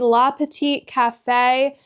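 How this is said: It is said with an American accent. The speaker calls it wrong. "Very American way of pronouncing that"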